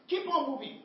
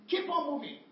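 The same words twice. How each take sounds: The two takes are said the same way.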